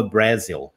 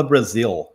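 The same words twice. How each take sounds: First: Brazil mispronounced as a learner would, lower than the correct take; learner's mispronunciation. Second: Brazil said the English way, stressed on the second syllable; correct English pronunciation. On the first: Teacher recalls his old mistake, "Brasil" mispronounced in English. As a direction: say "Brasil" the wrong, Portuguese-influenced English way. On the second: Teacher shows learners the right English word, "Brasil" pronounced correctly in English. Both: Shown as a demonstration. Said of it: "pronúncias erradas que eu aprendi".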